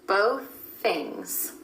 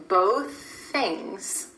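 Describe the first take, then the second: The two takes are said the same way.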